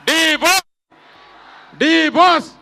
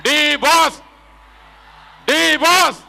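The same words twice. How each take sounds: The two takes are said the same way.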